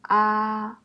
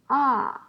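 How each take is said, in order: First: The pitch stays high and level. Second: The pitch falls sharply from high to low.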